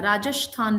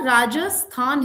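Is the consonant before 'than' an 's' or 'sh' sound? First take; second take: sh; s. First: The consonant before 'than' is an 'sh' sound. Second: The consonant before 'than' is a plain 's'. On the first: The speaker calls it wrong. "राजस्थान नहीं है" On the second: The speaker calls it right. "We are use टू of speaking स"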